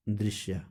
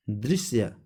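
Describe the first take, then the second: First: Said in the usual way. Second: दृश्य said with a plain s, "drisya"; wrong s sound. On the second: Shown as a demonstration. Teacher showing the error to students, दृश्य with a hissless "drisya" s. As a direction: say दृश्य as dris-ya, s not sh. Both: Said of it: "छोटा स संबंधित अशुद्धियाँ".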